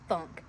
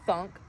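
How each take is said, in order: Both takes have the same delivery.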